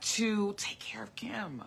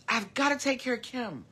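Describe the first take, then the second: First: Soft breathy whisper, slowed down; hushed self-reminder. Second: Said in the usual way. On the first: Real, not acted. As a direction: whisper it to yourself like a private vow. Repeats line, first whispered.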